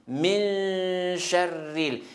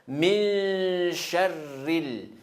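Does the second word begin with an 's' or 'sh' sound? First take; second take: sh; sh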